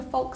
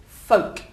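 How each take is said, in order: First: "folk" mispronounced with an audible L; L sounded. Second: "folk" with long O and no L; silent L. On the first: Teacher mimics a learner's mistake, "folk" with the L pronounced. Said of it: "I'm hearing a folk somewhere". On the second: Teacher corrects the class's mistake, "folk" with silent L. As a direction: go straight from the O to the K in "folk". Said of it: "It's, there's no L". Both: Shown as a demonstration.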